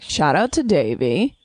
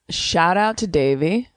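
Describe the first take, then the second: First: It is said with lively enthusiasm. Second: It is said flatly, without much enthusiasm.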